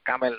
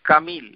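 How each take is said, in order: First: The second vowel is an 'e' sound. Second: The second vowel is an 'ee' sound. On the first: It is an Urdu-influenced form. The speaker calls it wrong. "কামেল এই এ মে দিয়ে কোনো উচ্চারণ আরবি শব্দে নাই" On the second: It is the proper Arabic form. The speaker calls it right. "কামিল মানে পরিপূর্ণ"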